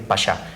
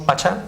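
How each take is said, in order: First: The middle consonant is an 'sh' sound. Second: The middle consonant is a 'ch' sound. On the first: The speaker calls it right. "es mejor decir pasha" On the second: The speaker calls it wrong. "si decimos pacha"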